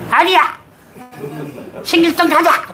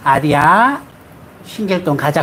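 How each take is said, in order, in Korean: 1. 목소리가 크고 날카롭고 거칠어요. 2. 목소리가 부드럽고 다정하고 차분해요.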